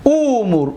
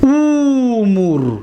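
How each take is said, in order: First: Said in the usual way. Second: امور spoken slowly and clearly; slow drawn-out model word. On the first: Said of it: "امور فعل امر است". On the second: Shown as a demonstration. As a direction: stretch امور very slowly, each sound held. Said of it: "دقت دادید؟".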